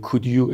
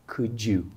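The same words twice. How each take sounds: First: The d and y are said as separate sounds. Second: The d and y blend into a j sound. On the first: "اگه کسی بگه could you اشتباهه؟ No" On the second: "صدای ج میده. مثل could you"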